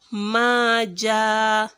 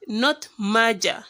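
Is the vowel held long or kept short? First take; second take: long; short. First: The vowel is held long. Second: The vowel is kept short. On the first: The speaker calls it right. "You have to elongate it for two harakats" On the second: The speaker calls it wrong.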